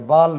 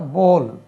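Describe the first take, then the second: First: The vowel is an open, unrounded 'aa' sound. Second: The vowel is a rounded 'aw' sound. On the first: The speaker calls it wrong. "ये बाल नहीं होता" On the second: The speaker calls it right. "इसका उच्चारण बोल"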